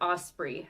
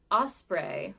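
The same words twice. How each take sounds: First: "osprey" ending in EE, like "spree"; "osprey" with second syllable rhyming with "see"; alternate pronunciation. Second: "osprey" ending in a long AY, like "spray"; "osprey" with second syllable rhyming with "day"; alternate pronunciation. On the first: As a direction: say "osprey" as OS-pree. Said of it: "however you say that". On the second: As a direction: say "osprey" as OS-pray. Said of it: "I've heard it said both ways". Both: Shown as a demonstration.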